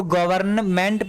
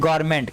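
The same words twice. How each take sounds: First: गवर्नमेंट with the middle N sounded; full spelled-out reading. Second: गवर्नमेंट squeezed into "gor-ment"; shortened reading, silent N. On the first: Teacher showing what spelling suggests, गवर्नमेंट with N pronounced. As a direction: say every part, "go-var-n-ment", in गवर्नमेंट. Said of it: "लेकिन एन word यहाँ silent". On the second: Teacher giving students the everyday reading, गवर्नमेंट as a short "gor-ment". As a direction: drop the middle N in गवर्नमेंट. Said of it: "सीधा इसको क्या पढ़ देते हैं". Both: Shown as a demonstration.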